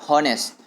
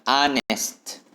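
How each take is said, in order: First: The word begins with an audible H sound. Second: The word begins with a vowel, no H. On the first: The speaker calls it wrong. "mungkin ada yang membaca honest" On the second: The speaker calls it right. "huruf H-nya tidak disebutkan"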